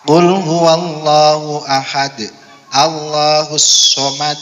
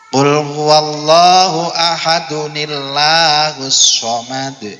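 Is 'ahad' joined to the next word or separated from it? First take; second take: separate; joined. First: Ahad ends with a stop before Allahus. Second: Ahad runs into the next word with an added n. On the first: The speaker calls it wrong. "jangan sampai" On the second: The speaker calls it right. "ada nun kecilnya ketika dibaca wasal"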